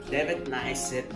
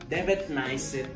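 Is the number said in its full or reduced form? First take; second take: reduced; reduced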